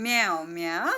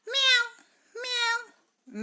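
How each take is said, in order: First: Said in the usual way. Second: High squeaky meow; a cat's meow, pitched way up. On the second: Shown as a demonstration. Teacher shows the cat's sound to pupils, high meow. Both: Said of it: "What is the sound of cat?".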